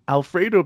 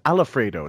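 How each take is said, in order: First: The word has its usual number of syllables. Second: The word has an extra syllable added.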